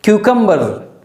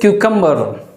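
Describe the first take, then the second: The two takes are said the same way.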